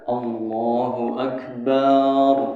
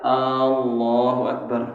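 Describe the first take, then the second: First: The final syllable bar is drawn out. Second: The first vowel is drawn out long. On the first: "barnya panjang, ... nggak sah juga" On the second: "Kalau alnya panjang, ... nggak sah"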